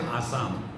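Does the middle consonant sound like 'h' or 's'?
s. The middle consonant is an 's' sound. "They don't say"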